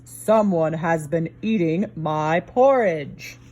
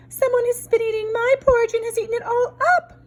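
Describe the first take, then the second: First: A hint of a slow, low papa bear; lightly voiced big bear, slow; papa bear grumbling slowly, lightly voiced; big rough Papa Bear voice. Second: Put-on high, tiny baby bear voice; baby bear piping high and small; wee small voice. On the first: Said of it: "in his big rough voice". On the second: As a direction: squeak it like a little cub. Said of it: "in his wee small voice".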